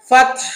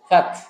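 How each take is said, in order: First: The h is tense and harsh from the throat. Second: The h is soft and light like a breath. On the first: The speaker calls it right. "এরকম করে আমার গলাটা টেনে ধরতে হবে" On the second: The speaker calls it wrong. "বড় হার জায়গায় ছোট হা উচ্চারণ করলে এই ভুলটা হবে"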